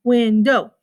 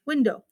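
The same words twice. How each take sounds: First: WINDOW firmly as "win", "dow"; split into syllables. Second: Said in the usual way. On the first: Shown as a demonstration. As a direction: mark both beats of "window". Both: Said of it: "is how many syllables it is".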